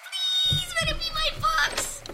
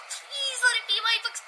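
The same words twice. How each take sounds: First: High, drawn-out begging; desperate hopeful plea. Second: Eager, quick little wish; hopeful begging under the breath; hopeful plea. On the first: Girl watching mailman reach the door, desperately hopeful. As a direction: stretch out PLEASE in a high squeal. Girl wishing harder for books. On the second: Girl watching mailman bring the package, hopeful. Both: Acted.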